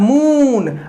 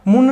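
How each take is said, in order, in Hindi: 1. स्वर लंबा बोला जाता है। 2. स्वर छोटा बोला जाता है। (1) "हमेशा लॉन्ग साउंड" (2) "मून नहीं ना आ रहा है"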